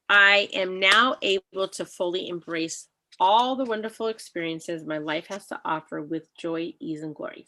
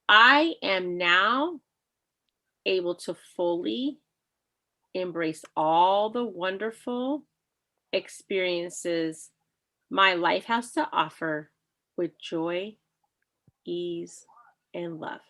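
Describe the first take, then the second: First: It is said at a normal speed. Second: It is said slowly.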